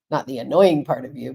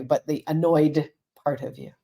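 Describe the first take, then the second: First: "annoying" punched, pitch slightly low; stress on annoying. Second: "annoyed" set apart, brief pause after it; stress on annoyed. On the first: Counselor correcting herself to listeners, stress on "annoying". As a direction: lean on "annoying" as the word to reject. Correcting her own wrong word. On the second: Counselor giving listeners the right word, stress on "annoyed". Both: Shown as a demonstration.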